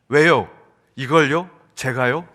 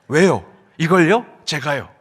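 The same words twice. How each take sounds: First: It is said in a fairly mild tone. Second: It is said in a snotty, irritating tone.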